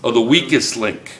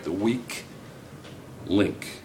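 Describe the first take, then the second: First: "weakest" stressed with a firm falling close; corrected title. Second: "The weak link" tried out much softer, "weak" rising in doubt; unsure title. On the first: Teacher recalling the show's real name, corrected and sure. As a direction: land on "the weakest link" as the right name at last. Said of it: "I stand corrected". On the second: Teacher checking a show title with class, unsure and soft. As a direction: test "The weak" then "link" like a half-remembered name. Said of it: "am saying that right?". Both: Shown as a demonstration.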